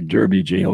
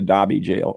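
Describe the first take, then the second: First: Derby is said with an 'er' vowel, American style. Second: Derby is said with an 'ar' vowel, British style.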